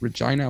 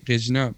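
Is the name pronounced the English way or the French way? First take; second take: English; French. First: The name is pronounced the English way. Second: The name is pronounced the French way. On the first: "in English it's Regina" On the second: "in French you say Regina"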